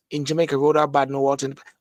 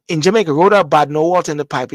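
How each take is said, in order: First: Said in the usual way. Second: Emphatic slogan. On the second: Shown as a demonstration. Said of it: "repeats the phrase".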